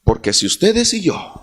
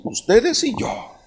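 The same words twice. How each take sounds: First: Said in the usual way. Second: Ustedes y yo with y lifted high; stress on y. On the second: Shown as a demonstration. Preacher repeats ustedes y yo, leaning on y. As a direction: lean on the word y, set apart. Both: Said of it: "digo así".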